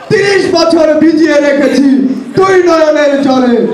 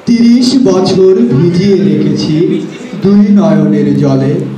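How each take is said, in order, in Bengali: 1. এটি রাজনৈতিক বক্তৃতার মতো জোরালো ভঙ্গিতে বলা হয়েছে। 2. এটি মসৃণ, কাব্যিক আবৃত্তির ঢঙে পড়া হয়েছে। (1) "একজন রাজনীতিবিদ যেভাবে স্টেজে আসে... একটা অন্যরকম মুড ছিল" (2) "প্রফেশনাল একজন আবৃত্তিকার... সে ভালো আবৃত্তি করছে"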